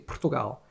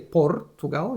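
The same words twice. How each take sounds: First: The first vowel is dropped, sounding like 'pr'. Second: The first syllable keeps a full vowel, like 'por'. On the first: The speaker calls it right. "you say Portugal" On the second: The speaker calls it wrong. "you don't say Portugal"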